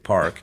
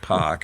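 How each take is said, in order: First: The R is clearly pronounced. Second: The R is dropped, Boston style.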